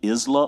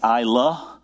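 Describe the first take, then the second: First: The first syllable does not sound like 'eye'. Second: The first syllable sounds like 'eye'. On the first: The speaker calls it wrong. "don't say Isla" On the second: The speaker calls it right. "It's Isla. And she wrote out I and then La"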